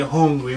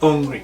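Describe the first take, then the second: First: The word starts with a clear h sound. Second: The word starts without any h sound. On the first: This is how the speaker's own area says it. "We say hungry" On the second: This is how the other area says it. "In their parish they say hungry"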